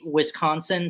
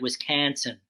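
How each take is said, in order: First: The stressed vowel sounds close to an O. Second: The stressed vowel sounds close to an A. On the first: "I say Wisconsin sort of like it's almost an O" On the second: "it sounds like Wisconsin with like an A"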